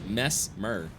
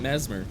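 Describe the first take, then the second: First: The S sound in the middle is drawn out. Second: The S sound in the middle is short. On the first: The speaker calls it right. "You really pronounce the S's in your name" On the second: The speaker calls it wrong. "He wants you to know he ain't Mesmer"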